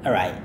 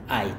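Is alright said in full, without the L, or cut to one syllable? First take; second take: no L; one syllable. First: The word is said without the L sound. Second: The word is cut to one short syllable. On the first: "Kadang L-nya nggak berbunyi" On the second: "secara informal banget dia hanya bilang ait"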